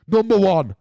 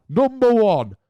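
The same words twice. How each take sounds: First: Announcing. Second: Higher, louder, showman countdown call; a playful hammed-up reveal; big announcement. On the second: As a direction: build it like a game show reveal. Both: Shown as a demonstration.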